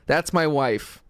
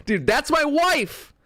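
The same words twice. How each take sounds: First: Said in the usual way. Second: High, slow, stretched-out exclamation on wife; mock excited claim. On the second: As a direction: gush it like you just spotted your crush.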